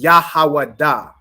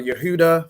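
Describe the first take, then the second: First: Every vowel is an ah sound. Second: The vowels include e and u sounds. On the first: The speaker calls it right. "Judah in the Hebrew is" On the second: The speaker calls it wrong. "how people say"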